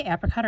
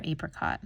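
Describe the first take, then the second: First: "apricot" opening with the a of "apple"; short-a apricot. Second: "apricot" opening with the a of "ape"; long-a apricot. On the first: Asking viewers how they pronounce it, "apricot" with short a. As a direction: say "apricot" as APP-ricot. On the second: Asking viewers how they pronounce it, "apricot" with long a. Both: Shown as a demonstration. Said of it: "how do you pronounce that".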